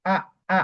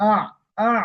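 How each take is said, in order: First: Short open আ without the throat ain; plain hamza mistake. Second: আ squeezed from the throat, ending on an Arabic ain; throaty ain. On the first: Teacher showing what ain is not, short plain আ. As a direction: say a simple short আ, no throat squeeze. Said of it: "এরকম না". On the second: Teacher showing learners the ain sound, throaty আ. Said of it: "একটু গলার এখান থেকে". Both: Shown as a demonstration.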